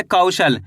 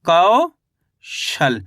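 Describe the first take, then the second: First: Said in the usual way. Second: Kaushal split in two, long rising कौ, gap, then falling शल; teacher slowly sounding out Kaushal in two parts; syllable by syllable. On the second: Shown as a demonstration. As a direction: draw out कौ upward, pause, then drop on शल. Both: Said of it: "तो मिलके बन गया अपने".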